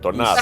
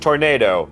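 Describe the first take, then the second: First: The word has a Spanish pronunciation. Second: The word has an English pronunciation. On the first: "but with the Spanish pronunciation" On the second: "It's like tornado"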